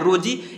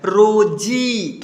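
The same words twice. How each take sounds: First: The final vowel is cut short. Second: The final vowel is drawn out long. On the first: The speaker calls it wrong. "थोड़ा सा कम कीजिएगा" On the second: The speaker calls it right. "थोड़ा खींच करके आ रहा है"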